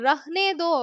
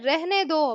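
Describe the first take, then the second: First: The first vowel sounds like 'a' in 'rahne'. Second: The first vowel sounds like 'e' in 'rehne'. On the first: It follows the written spelling. The speaker calls it wrong. "என்னதான் ரஹ்னே தோ அப்படின்னு எழுதியிருந்தாலும்" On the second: It is how people actually say it. The speaker calls it right. "சொல்லும்போது ரெஹ்னே தோ அப்படின்னு சொல்லுவாங்க"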